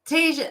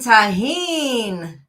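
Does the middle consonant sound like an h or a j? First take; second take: j; h. First: The middle consonant is a j sound. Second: The middle consonant is an h sound. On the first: The speaker calls it wrong. "what in the world is Tajin? Like, Cajun?" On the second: The speaker calls it right. "Oh, you mean tahine. ... that's how you say it?"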